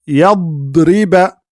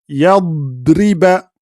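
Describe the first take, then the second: Both takes have the same delivery.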